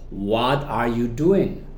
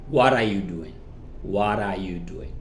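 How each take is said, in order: First: "What are you" very slow, word by word; deliberate unreduced "What are you doing"; full careful form. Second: "What are you" linked, tapped t, lower; lower, connected "What are you doing"; reduced pronunciation. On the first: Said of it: "repasamos de nuevo". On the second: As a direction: run "What are you" into one word. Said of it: "en la reducción decimos". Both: Shown as a demonstration.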